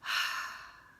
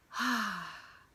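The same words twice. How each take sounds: First: Loud unvoiced sigh of air; a pure airy exhale; demonstrated breathy sigh. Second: Long loud voiced sigh out; demonstrated releasing sigh; audible sigh. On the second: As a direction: let the breath go with sound. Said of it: "let our breath out with a sigh and an audible". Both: Shown as a demonstration.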